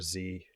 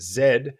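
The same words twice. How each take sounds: First: The letter is said as 'zee', North American style. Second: The letter is said as 'zed', British style.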